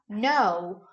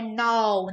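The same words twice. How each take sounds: First: The vowel is closed, ending in an oo sound. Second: The vowel is open, without an oo ending. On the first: The speaker calls it right. "Sonzinho de U mesmo no final. O Ozinho é fechado" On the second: The speaker calls it wrong. "não é no"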